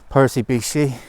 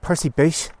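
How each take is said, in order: First: The last word is said with two syllables. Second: The last word is said with one syllable. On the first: The speaker calls it wrong. "I keep saying Beachy because it's the way it's spelled" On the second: The speaker calls it right. "but pronounce it Percy Beach"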